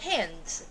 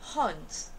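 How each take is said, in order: First: The vowel is made toward the front of the mouth. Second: The vowel is made toward the back of the throat. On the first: "No inglês americano" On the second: "Britânico"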